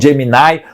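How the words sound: It is said with an American English pronunciation. "nos Estados Unidos eles falam Gemini"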